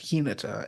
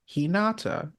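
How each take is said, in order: First: The name is said run together. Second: The name is said in separate parts. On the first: This is the name of the character in this show. "they run it together so it's Hinata" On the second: This is the name of a character in a different show. "in Naruto you have Hinata"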